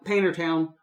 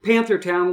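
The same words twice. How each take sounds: First: Painter Town with a long A and no th sound; local pronunciation. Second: Said in the usual way. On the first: Shown as a demonstration. Explaining the local name, Painter Town the way locals say it. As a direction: say Painter Town the Appalachian way, slowly. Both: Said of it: "we call Painter Town".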